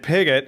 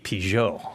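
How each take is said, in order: First: The name is said with an English pronunciation. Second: The name is said with a French pronunciation. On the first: "I pronounced it right" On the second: "but if it was French, it could be"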